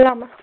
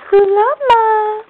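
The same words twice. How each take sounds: First: Said in the usual way. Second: Higher, bright call to the animal; calling out the llama's name. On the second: Real, not acted. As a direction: call the llama over, lifted up. Calls out to the llama.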